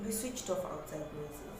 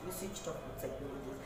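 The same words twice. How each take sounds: The two takes are said the same way.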